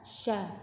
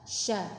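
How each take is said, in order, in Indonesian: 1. Bunyi sh langsung masuk ke vokal. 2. Bunyi sh langsung masuk ke vokal.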